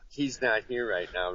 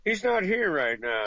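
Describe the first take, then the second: First: Said in the usual way. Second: Higher, a bit louder, stress on not; fake not-home reply. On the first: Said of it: "You had to have the". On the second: Guy dodging a call, faking not-home voice. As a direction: pretend to be someone else saying he's out. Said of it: "you're like".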